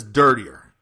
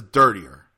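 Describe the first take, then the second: First: Louder, pressing him; girl asking for dirtier talk; insistent demand. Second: Louder, lower pressing; girl asking for dirtier talk; insistent demand. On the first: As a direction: demand it firmly. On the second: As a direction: demand it again firmly. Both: Retold or imitated. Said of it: "she says".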